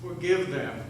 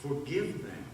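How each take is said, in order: First: "forgive them" said firmly at full voice, FORGIVE stressed and falling; strong plea. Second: "Forgive them" repeated much softer, in wonder, FORGIVE falling; awed echo. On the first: Jesus asking pardon for his executioners, firm and clear. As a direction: press on FORGIVE, steady and sure. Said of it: "He spoke strongly and clearly". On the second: Thief repeating the words to the crowd, in hushed wonder. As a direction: hush it, as if hardly believing it. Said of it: "Can you believe that?". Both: Acted.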